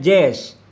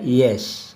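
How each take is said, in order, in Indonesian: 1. Kata ini diawali dengan bunyi J. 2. Kata ini diawali dengan bunyi Y. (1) "jangan dibaca jazz" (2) "harus dibaca yes"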